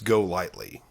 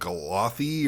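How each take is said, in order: First: It is said as two words, go and lightly. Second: It is said as one blended word, galothy. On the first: The speaker calls it right. "I think it's go lightly" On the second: The speaker calls it wrong. "I was like Galothy"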